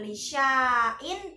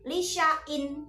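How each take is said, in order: First: The vowel after 'sh' is held long. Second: The vowel after 'sh' is kept short. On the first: The speaker calls it wrong. "bukan lisya'in" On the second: The speaker calls it right. "tapi lisya'in, pendek"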